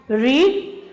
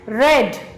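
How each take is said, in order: First: It has the present-tense pronunciation. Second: It has the past-tense pronunciation. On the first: The action happens now or habitually. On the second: The action already happened.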